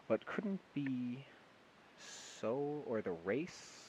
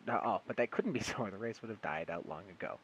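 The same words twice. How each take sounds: First: Slow puzzled misreading. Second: Said in the usual way. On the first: Real, not acted.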